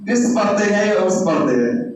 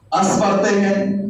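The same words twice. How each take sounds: First: اس read first as "is", then as "us"; other readings of the word. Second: اس read as "as" with an open a, slow and deliberate; first reading of the word. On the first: Teacher contrasting the readings of unmarked اس, clearly. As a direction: contrast اس said "is" against اس said "us". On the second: Teacher showing students one way to read اس, slow. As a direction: say اس as "as", drawn out so the a vowel is clear. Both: Shown as a demonstration. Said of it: "آپ اس کو کیا پڑھتے ہیں".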